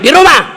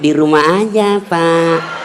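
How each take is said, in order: First: It is said loudly in a hard, blunt voice. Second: It is said softly in a sultry, lingering voice.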